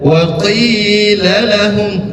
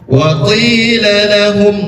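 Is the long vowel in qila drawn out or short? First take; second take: drawn out; short. First: The long vowel is held for three or four beats. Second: The long vowel is held for two beats. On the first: The speaker calls it wrong. "jangan ... itu udah lebih dari dua harkat, bisa tiga bisa empat" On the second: The speaker calls it right. "membacanya dua harkat"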